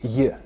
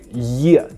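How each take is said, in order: First: The 'ye' sound is soft and barely pronounced. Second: The 'ye' sound is strong and clearly pronounced. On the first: The speaker calls it right. "just a soft one" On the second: The speaker calls it wrong. "Don't make a very noticeable yeah sound"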